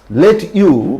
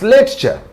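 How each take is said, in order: First: The two words are said separately and fully. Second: The two words blend into one linked form.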